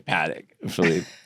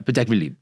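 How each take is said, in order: First: It is said flat with a strong nasal American sound. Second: It is said very quickly in one smooth run. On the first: "like a very nasally paddock" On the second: "it sounds like it's very quick"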